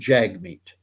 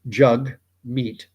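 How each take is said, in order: First: The first syllable sounds like jag. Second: The first syllable rhymes with hug. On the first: This is how most people say the name from its spelling. "because it's spelled J A G M E E T, pronounce it" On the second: This is how the person himself says his name. "according to him, his name is pronounced"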